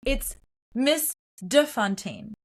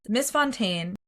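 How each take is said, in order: First: "de Fontaine" slowly, the "de" set apart and stressed; slow, deliberate "it's Miss de Fontaine"; correcting the name. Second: "Miss Fontaine" with the "de" dropped; mispronounced name. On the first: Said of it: "and she goes". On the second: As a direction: say "Miss Fontaine", leaving out the particle. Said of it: "her name is pronounced wrong". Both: Retold or imitated.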